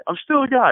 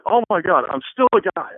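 First: Even higher, louder repeat of I'm still a guy; climbing exasperated repeat; bigger retold freak out. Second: Higher, louder flustered exclaim; mock panic, embarrassed; pitched up exasperated outburst; retold freaking out. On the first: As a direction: push the panic further on still. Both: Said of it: "freaking out".

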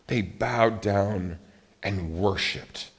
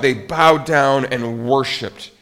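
First: Slow, softer "they bowed down and worshiped"; hushed reverence. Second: Slow, weighty "They bowed down and worshiped" with a push on "bowed"; slow emphatic. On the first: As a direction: let it sink down slow and hushed. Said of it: "It says". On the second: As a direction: lean on "bowed" and draw it out. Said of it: "And it says they what?". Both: Shown as a demonstration.

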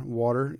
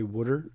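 First: Said in the usual way. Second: "wooder" with a rounded oo and a soft d for the t; Philly pronunciation. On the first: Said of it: "'cause in Philly you say". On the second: Shown as a demonstration. Philly native showing the local way to say water, "wooder". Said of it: "you say wooder".

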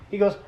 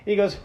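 The two takes are said the same way.

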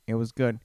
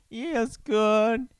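First: Said in the usual way. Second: Silly high, drawn-out repeat. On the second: Pretend. Host clowning on his own remark, silly high voice. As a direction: play it up high and slow.

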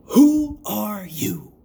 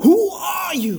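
First: Very slow, portentous question; dramatic intoning. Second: High, loud hammed-up question; mock-epic imitation. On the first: Acted. Host intoning the episode's big question to listeners, dramatic. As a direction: draw out each word like a grand mystery. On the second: Host parodying the show's intro for his co-hosts, mock-epic. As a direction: belt it out like a parody trailer.

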